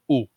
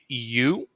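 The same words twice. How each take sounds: First: The vowel is a single pure oo sound. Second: The vowel glides, starting with a y sound. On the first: This is the Polish way of saying it. The speaker calls it right. "it would be an U" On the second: This is the English way of saying it. The speaker calls it wrong. "it wouldn't be a U"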